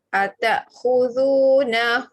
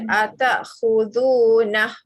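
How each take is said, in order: First: The word ends with hu held two counts. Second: The word ends clipped on a bare h sound. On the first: The speaker calls it right. "Kalau dibaca sambung atakhudunahu buhtanan" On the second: The speaker calls it wrong. "jangan baca atakhudunah"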